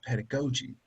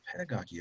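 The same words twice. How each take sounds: First: Pedagogy with GO in the middle; corrected pronunciation. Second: Pedagogy with GOD in the middle, softer; rejected pronunciation. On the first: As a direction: say pedagogy with a long O, ped-a-GO-jee. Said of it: "it's pedagogy". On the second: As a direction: say pedagogy with an "ah", ped-a-GAH-jee. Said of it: "It's not pedagogy". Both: Retold or imitated.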